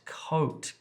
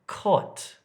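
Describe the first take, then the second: First: The vowel is a long O sound. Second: The vowel is a short O sound. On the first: "this is the long O sound" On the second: "for Dravidian speakers, it can become cot"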